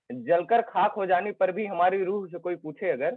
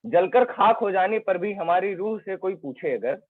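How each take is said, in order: Both takes have the same delivery.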